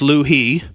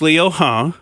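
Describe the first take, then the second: First: The name is said in a plain English-style way. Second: The name is said closer to the Chinese sounds. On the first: The speaker calls it wrong. "what I would say is Liu He" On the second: The speaker calls it right. "Liu He is the correct pronunciation"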